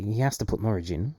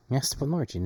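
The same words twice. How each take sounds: First: "has" leaned on, rising; "has" stressed, then the line rises. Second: Higher, "Norwich" stressed and falling; "Norwich" made prominent, pitch up. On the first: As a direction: push the word "has". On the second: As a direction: hit the word "Norwich". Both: Shown as a demonstration.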